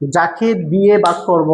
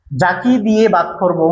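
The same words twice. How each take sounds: First: "যাকে দিয়ে ভাগ করব" again slowly and evenly; slowed teacher repeat. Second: "যাকে দিয়ে ভাগ করব" said slowly, word by word; slow it down for the class; slowed teacher repeat. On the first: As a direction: repeat it slowly to drive it home. (আবার ধীরে বলা) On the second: (ধীরে ধীরে বুঝিয়ে বলা) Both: Shown as a demonstration. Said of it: "আবার বলছি".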